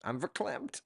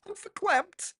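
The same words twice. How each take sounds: First: Said in the usual way. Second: Much higher, put-on hostess voice; Coffee Talk voice. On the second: Coffee Talk sketch voice, see 149.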